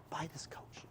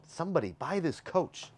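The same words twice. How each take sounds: First: Hushed, whispery aside to viewers; whispered plea. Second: High, playful sign-off plea; high-pitched plea. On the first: Host urging viewers to buy the coach, whispering. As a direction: drop right down to a whisper. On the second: Host urging viewers to buy the coach, high-pitched plea. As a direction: plead high, at normal volume. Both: Real, not acted.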